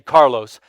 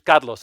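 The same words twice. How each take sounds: First: The name is said with an English pronunciation. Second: The name is said with a Spanish pronunciation. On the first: It avoids distancing the listener. "So I'll say Carlos" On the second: It marks the speaker as foreign to the listener. "if I say it like that, I've already distanced you"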